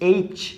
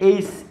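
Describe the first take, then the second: First: The letter name ends with a ch sound. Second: The letter name ends with an s sound. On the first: The speaker calls it right. "আসলে এটা এইস নয়, এটা হচ্ছে এইচ" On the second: The speaker calls it wrong. "অনেকেই আমরা কিন্তু কি করি, এটারে স দিয়ে উচ্চারণ করি"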